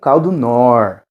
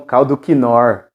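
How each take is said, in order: First: No K sound is heard before the N. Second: A K sound is heard before the N. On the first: This is how it is properly pronounced. The speaker calls it right. "Se pronuncia como caldo nor" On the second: This is how most people say it. The speaker calls it wrong. "que a maioria das pessoas falam caldo quinor"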